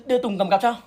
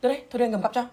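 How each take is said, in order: First: Said again louder, name swapped in; louder correction. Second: Said in the usual way. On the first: Acted. Boy offers to carry Ly's bag, louder correction. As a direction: correct yourself with a louder push. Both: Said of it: "À".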